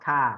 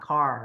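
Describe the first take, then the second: First: The r is said without curling the tongue. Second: The r is said with the tongue curled back. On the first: The speaker calls it wrong. "not car" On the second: The speaker calls it right. "You have to curl your tongue"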